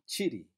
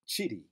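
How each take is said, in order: The two takes are said the same way.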